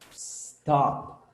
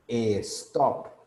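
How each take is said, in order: First: The word starts directly with the s sound. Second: An extra vowel sound comes before the s. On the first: The speaker calls it right. "I'm not pronouncing any E" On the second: The speaker calls it wrong. "decimos también e stop"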